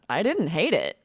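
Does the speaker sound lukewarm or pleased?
pleased. It sounds warm and enthusiastic. The thing was actually liked a lot. "That means I really liked it"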